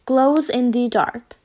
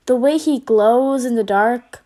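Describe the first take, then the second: First: Slow, careful dictation as he writes; slowly noting down. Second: Said in the usual way. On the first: A narrator's reading. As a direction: read it out while jotting it down. Noting words in notebook.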